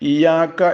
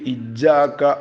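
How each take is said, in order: First: The y sound is short and not doubled. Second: The doubled y is overdone, sounding harsh. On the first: "ഇയാക്ക എന്ന് ഓതരുത്" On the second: "വല്ലാതെ ശബ്ദ് കൂട്ടിയിട്ട് ഇജാക്ക എന്ന് ഓതാനും പാടില്ല"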